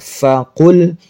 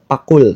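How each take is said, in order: First: The word begins with an F sound. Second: The word begins with a P sound. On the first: The speaker calls it right. "Fa menggunakan huruf F" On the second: The speaker calls it wrong. "bukan pakul"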